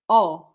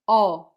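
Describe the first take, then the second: No difference in how they are said.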